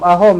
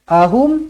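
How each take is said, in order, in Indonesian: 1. Vokal terakhir berbunyi 'o' terbuka. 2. Vokal terakhir berbunyi 'u' tertutup. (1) "jangan ahom ahom eh"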